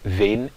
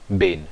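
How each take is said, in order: First: The word begins with a soft v sound. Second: The word begins with a hard b sound. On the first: The word before it ends in a vowel. The speaker calls it right. "a palavra ben será pronunciada ven" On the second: The word before it ends in a consonant. The speaker calls it wrong. "e não ben"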